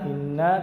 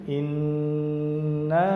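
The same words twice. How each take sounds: First: The doubled n is passed over quickly. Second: The doubled n is held before moving on. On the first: The speaker calls it wrong. "Tidak inna inna" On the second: The speaker calls it right. "tapi inna"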